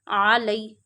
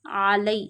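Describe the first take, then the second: First: It starts with a deep throat ain sound. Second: The same.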